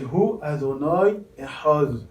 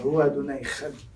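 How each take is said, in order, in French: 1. C'est dit avec une prononciation soignée et raffinée. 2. C'est dit avec un accent israélien moderne. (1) "En bonne prononciation" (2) "qui est l'accent euh, israélien. ... C'est moins beau"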